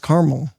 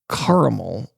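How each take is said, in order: First: The middle vowel is dropped, giving two syllables. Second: The middle vowel is said, giving three syllables. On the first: The speaker calls it wrong. "people say oh, it's caramel. It's not caramel" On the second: The speaker calls it right. "If anything, put that extra A in there"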